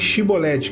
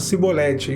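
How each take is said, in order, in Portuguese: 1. A palavra começa com um som de 'sh'. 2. A palavra começa com um som de 's'. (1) "Fale Shibolete" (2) "eles falavam Cibolete"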